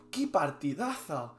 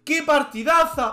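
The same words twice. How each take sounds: First: Said in the usual way. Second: High, loud, slow exclamation; exultant cry. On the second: Real, not acted. Streamer glorying in his own game, exultant cry. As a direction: belt it out, stretching the words. Repeats it louder and higher.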